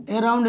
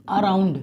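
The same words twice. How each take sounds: First: Around starting with long "ay", "ay-round"; wrong first vowel. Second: Around starting with short "uh", "uh-round"; correct first vowel. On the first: Teacher telling pupil never to read so, mispronounced. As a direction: show around misread with letter-name A. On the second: Teacher giving the correct reading, carefully pronounced. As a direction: model around with a schwa first, falling. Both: Shown as a demonstration. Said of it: "कभी भी around नहीं".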